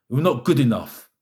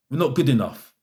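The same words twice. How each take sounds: The two takes are said the same way.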